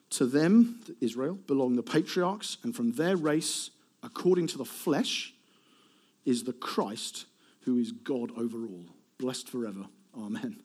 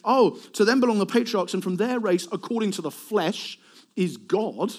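First: Scripture reading. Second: Higher, starting loud and easing off; hypothetical mock claim. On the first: Acted. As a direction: read it solemnly, settling down to a hushed amen. Reads Romans 9:5 aloud. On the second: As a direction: declaim it as an unthinkable claim. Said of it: "Nobody would ever say".

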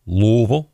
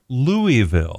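First: "Louisville" run together as LOO-vul; "Louisville" squashed to two quick syllables; local pronunciation. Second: "Louisville" over-clearly as LOO-ee-vil; "Louisville" spelled out for outsiders, pitched up; corrected pronunciation. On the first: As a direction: say "Louisville" the local way, middle swallowed. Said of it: "don't say Louisville". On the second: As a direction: say "Louisville" with every syllable out, a clear "ee". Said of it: "Oh, I'm sorry". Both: Retold or imitated.

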